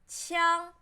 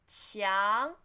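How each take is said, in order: First: The pitch stays high and level. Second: The pitch rises from mid to high. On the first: "So flatten" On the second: "second tone, rising"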